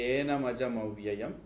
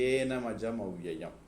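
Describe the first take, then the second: Both takes have the same delivery.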